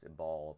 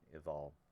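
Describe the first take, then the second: First: The middle consonant is a 'b' sound. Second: The middle consonant is a 'v' sound. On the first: This is the anglicized form of the name. The speaker calls it wrong. "we've anglicized it, so it's Ebal" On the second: This is the Hebrew form of the name. The speaker calls it right. "in Hebrew it should have been it's Mount Eval"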